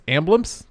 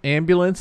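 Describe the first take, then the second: First: "ambulance" squashed into "amblance"; Baltimore pronunciation. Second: Said in the usual way. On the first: Shown as a demonstration. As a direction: say "ambulance" with the middle syllable swallowed. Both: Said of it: "ambulance is ambulance".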